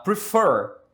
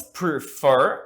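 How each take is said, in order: First: Said in the usual way. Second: "Prefer" broken into two beats, pre-FER, second stressed; "Prefer" pronounced loudly as two separate syllables, stress on the last; split into two syllables. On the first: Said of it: "Olhem os exemplos". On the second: Shown as a demonstration. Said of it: "são duas".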